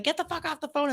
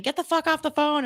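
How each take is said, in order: First: High but softer mock yell; retold echoed yell. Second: Retold yell. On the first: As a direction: echo the yell high, without the volume. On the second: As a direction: imitate a yell at moderate volume. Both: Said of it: "you hear him yelling".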